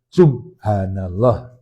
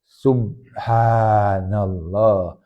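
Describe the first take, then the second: First: The vowel after 'subh' is cut short. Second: The vowel after 'subh' is drawn out long. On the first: The speaker calls it wrong. "Bukan subhanallah" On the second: The speaker calls it right. "harus kita ucapkan subhanallah. Haknya hak kecil, kemudian ada mad tabi'i"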